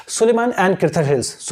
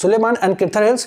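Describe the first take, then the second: First: Slow recall demo. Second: Said in the usual way. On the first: Shown as a demonstration. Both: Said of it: "आप start करें समझने को कि".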